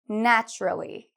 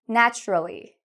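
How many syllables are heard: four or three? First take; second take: three; three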